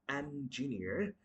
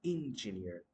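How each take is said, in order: First: Engineer with open "en" start; correct pronunciation. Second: Engineer starting with "in"; mispronounced engineer. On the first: Teacher giving the right form, engineer with clear "en". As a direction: say engineer as "EN-juh-neer". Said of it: "The word is going to be". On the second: Teacher showing the huge mistake, engineer with "in". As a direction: say engineer as "IN-juh-neer". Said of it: "It's a huge mistake". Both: Shown as a demonstration.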